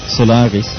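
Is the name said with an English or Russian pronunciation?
English. It is said with an English pronunciation. It names the tech firm.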